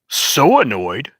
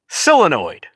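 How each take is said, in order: First: The word is given an unusual, non-American pronunciation. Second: The word is given its usual American pronunciation. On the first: This is how the ad's narrator said it. The speaker calls it wrong. "I've never once heard anybody say" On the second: This is how Americans normally say it. The speaker calls it right. "Can you say the fucking word right?"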